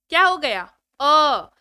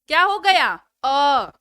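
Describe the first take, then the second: Both takes have the same delivery.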